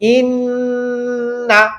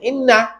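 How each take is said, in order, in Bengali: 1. অনুনাসিক ন-টি প্রায় এক সেকেন্ড ধরে রাখা হয়। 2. অনুনাসিক ন-টি তাড়াহুড়ো করে সংক্ষিপ্ত করে কাটা হয়। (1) "ওয়াজিব গুন্না এক সেকেন্ড সময় দিবেন" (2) "অনেকে বলে ইন না এত তাড়াহুড়া"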